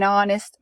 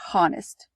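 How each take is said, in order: First: The word starts with a vowel, H silent. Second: The word starts with a pronounced H sound. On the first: The speaker calls it right. "the H is silent" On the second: The speaker calls it wrong. "we do not say honest"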